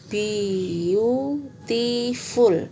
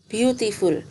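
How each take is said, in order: First: The word is broken into separate syllables. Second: The word is said smoothly as one unit. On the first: "Tapi kalau kalian penggal, ini menjadi" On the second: "bacanya gitu ya"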